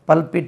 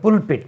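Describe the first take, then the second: First: The first vowel sounds like the one in 'bulb'. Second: The first vowel sounds like the one in 'put'. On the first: The speaker calls it wrong. "பல்ப் தெரிஞ்சவர்கள் எல்லாம் பல்பிட் என்று உச்சரிப்பார்கள்" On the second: The speaker calls it right. "ஆனால் இது புல்பிட்"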